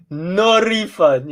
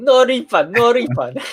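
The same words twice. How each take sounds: First: Said in the usual way. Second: Higher, louder put-on Asian accent. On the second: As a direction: chant it in a stereotyped Asian accent. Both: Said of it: "I'm gonna say it in the Asian accent".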